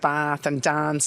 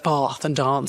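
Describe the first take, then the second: First: The words are said in an Irish accent. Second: The words are said in an English accent. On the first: "they do have Irish twang" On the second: "instead of"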